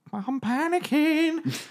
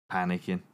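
First: Very high, slow, strained "panicking"; panicky squeak. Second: Said in the usual way. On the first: Shown as a demonstration. Game master hams up a survivor's panic, squeaky and slow. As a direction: stretch "I'm panicking" up into a thin squeal.

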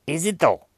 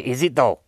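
First: Higher-pitched "Is it though?" falling at the end; pointed sceptical repeat. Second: Said in the usual way. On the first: Acted. Reviewer doubting that marijuana is brilliant, pointedly sceptical. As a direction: pitch "Is it" up high, then drop on "though".

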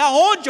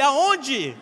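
First: One word barked loud and high; furious shout. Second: A second, less loud high shout; repeated yell. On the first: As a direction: yell it at the GPS in disbelief. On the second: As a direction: yell it again, a bit spent. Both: Retold or imitated. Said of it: "Eu gritava com ele".

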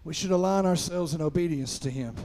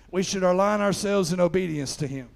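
No difference in how they are said.

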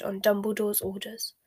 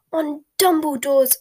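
First: Said in the usual way. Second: Loud, high, slow disbelieving echo; outraged. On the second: A narrator's reading. Bellatrix echoes Snape's excuse back at him, outraged. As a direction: throw the words back in outrage. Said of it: "in tones of outrage".

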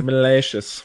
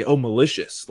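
First: "malicious" with a long "ay" in the middle, muh-LAY-shus; British-style malicious. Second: "malicious" with a short "i", muh-LISH-us; ordinary misread pronunciation. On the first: Shown as a demonstration. Streamer showing the host his nickname, "malicious" said British-style as muh-LAY-shus. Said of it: "have to say that in a British accent". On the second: Retold or imitated. Viewers misreading his nickname, "malicious" said as standard muh-LISH-us. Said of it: "they'll read it and not realize".

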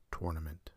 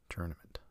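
First: Tournament starting like tore; TOR-nament. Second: Tournament starting like turn; TUR-nament. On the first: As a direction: say tournament with an or vowel. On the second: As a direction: say tournament with an er vowel. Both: Shown as a demonstration. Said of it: "depending on how you want to say it".

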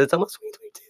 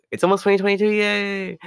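First: Said in the usual way. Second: High-pitched celebratory yay; super high-pitched. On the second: Real, not acted. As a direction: voice shooting up into a high squeal of cheer. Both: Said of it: "my voice went super high-pitched for a second".

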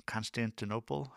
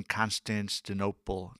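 First: "Constantinople" retried softly with a questioning rise, no extra s; unsure retry. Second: "Constantinople" with an extra s, like "Constanstinople"; stumbled pronunciation. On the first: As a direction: say "Constantinople" quietly, unsure, lifting the end like a question. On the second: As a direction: trip over "Constantinople", slipping in a stray s before "tinople". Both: Real, not acted. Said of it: "I can't say that city".

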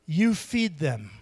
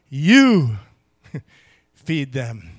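First: "You" punched, slow and deliberate; "You feed them" with the weight on "You"; stress on you. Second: "You" hit hard and loud, "feed them" dropped low; a loud parental "You", then a low "feed them"; stern parent emphasis. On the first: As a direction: lean hard on "You", then "feed them" falls. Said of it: "the emphasis is on the word "you". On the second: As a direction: scold it like a parent, hammering "You". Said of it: "That's how I talk to my kids". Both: Shown as a demonstration.

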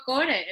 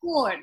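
First: "core" as KO-re, final e drawn out; hispanicised "core" ending in a clear e; Spanish pronunciation. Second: "core" as one syllable, kor; "core" with no final e; English pronunciation. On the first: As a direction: say "core" in two syllables. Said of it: "ya yo digo core". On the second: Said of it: "yo no puedo decir". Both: Shown as a demonstration.

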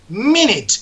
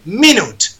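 First: "minute" said as MIN-it; short "minute", MIN-it; correct pronunciation. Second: "minute" said as Spanish mi-NUT; the wrong way, "minute" with a full u; wrong pronunciation. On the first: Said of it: "se dice minute". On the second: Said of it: "minuto no se dice minute". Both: Shown as a demonstration.

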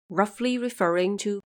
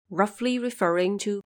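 The two takes are said the same way.

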